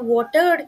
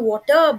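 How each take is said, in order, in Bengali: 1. R ধ্বনিটি উচ্চারিত হয়। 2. R ধ্বনিটি বাদ যায়।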